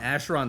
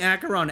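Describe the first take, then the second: First: The first syllable sounds like 'ash'. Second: The first syllable does not sound like 'ash'. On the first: The speaker calls it wrong. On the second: The speaker calls it right.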